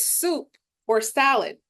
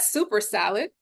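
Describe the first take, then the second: First: Soup and or are said as separate words. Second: Soup and or run together like 'super'. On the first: The speaker calls it right. "it's soup or salad" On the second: The speaker calls it wrong. "not super salad"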